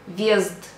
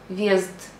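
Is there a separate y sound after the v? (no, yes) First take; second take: no; no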